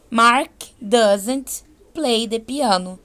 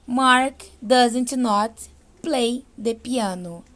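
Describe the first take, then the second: First: "doesn't" as one clipped contraction, slowly; contracted doesn't. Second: "doesn't not" said slowly as the full form does not. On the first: Teacher models the short form for students, slow and clear. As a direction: say "doesn't" contracted, one syllable plus n't. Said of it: "eu vou usar o doesn't". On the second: Teacher models the uncontracted form for students, slow and careful. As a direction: spell out "does not" in two separate words, slowly. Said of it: "Em vez de eu falar does not". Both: Shown as a demonstration.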